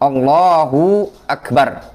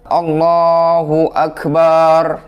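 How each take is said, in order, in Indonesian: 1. Vokal pada suku kata hu dipanjangkan. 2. Vokal pada suku kata ba dipanjangkan. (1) "Jadi hunya panjang ya" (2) "memanjangkan fathah pada huruf ba"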